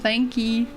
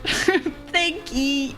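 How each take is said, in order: First: It is said in a plain American accent. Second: It is said in a put-on British accent.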